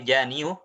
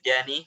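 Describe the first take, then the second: First: The word ends with an added 'yu' sound. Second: The word ends in a plain 'i' vowel. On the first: This is the original underlying form. "aslinya janiu ya, janiu aslinya ada dhammah" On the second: This is the form actually used. "misalnya jani"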